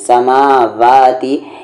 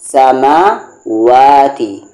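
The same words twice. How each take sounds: First: The middle consonant is made with teeth on lip. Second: The middle consonant is made with rounded lips. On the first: The speaker calls it wrong. "यहाँ पर लोग इसे अक्सर क्या पढ़ते हैं" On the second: The speaker calls it right. "बिल्कुल इंग्लिश में जो डब्लू का प्रोनंसिएशन होता है"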